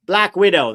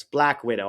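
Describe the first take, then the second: First: Remembering excitedly. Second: Said in the usual way. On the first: Real, not acted. Finally recalling the title for the chat, excited.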